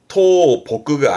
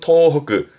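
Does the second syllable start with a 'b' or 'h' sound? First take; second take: b; h. First: The second syllable starts with a b sound. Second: The second syllable starts with an h sound. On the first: The speaker calls it wrong. "아니고" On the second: The speaker calls it right. "기본은 토허그"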